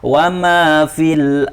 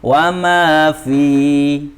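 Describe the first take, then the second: First: The final vowel is short, linked onward. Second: The final vowel is drawn out long. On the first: The reciter continues into the next word. "sekarang kita wasalkan, kita sambung" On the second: The reciter stops after this word. "ini ketika waqaf dibaca panjang"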